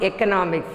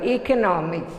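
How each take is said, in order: First: "economics" starting with eh; "economics" with a short e up front; short first vowel. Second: "economics" starting with ee; "economics" with a long E up front; long first vowel. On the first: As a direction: say "economics" as eh-kuh-NOM-iks. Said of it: "not economics". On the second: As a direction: say "economics" as ee-kuh-NOM-iks. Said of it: "the long vowel". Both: Shown as a demonstration.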